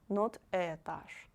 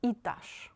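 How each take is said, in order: First: Этаж with a full э, the wrong way; wrong etazh. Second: Этаж said itazh, first vowel и; etazh with и. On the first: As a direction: say этаж with the error to avoid. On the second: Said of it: "you read it like И". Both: Shown as a demonstration.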